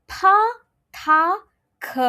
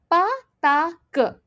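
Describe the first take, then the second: First: Pa, ta, ke with a puff of air; aspirated p t k. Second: Pa, ta, ke said without any breath; unaspirated p t k. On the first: Teacher contrasting second row, with breath. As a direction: blow through pa, ta, ke. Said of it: "When I transition to the second row". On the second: Teacher contrasting first row, no air. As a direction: keep pa, ta, ke unblown. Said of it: "I pronounce as". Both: Shown as a demonstration.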